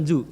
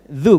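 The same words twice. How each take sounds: First: The consonant is a plain z behind the teeth. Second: The consonant is made with the tongue between the teeth. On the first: The speaker calls it wrong. "bukan zu" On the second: The speaker calls it right. "Ini cara cepatnya, gigit sedikit"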